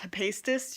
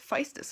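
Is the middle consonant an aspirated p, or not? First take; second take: aspirated p; not aspirated. First: The middle consonant is an aspirated p. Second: The middle consonant is not an aspirated p. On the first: The speaker calls it wrong. "P H makes an aspirated P" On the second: The speaker calls it right. "but no, it's Hephaestus apparently"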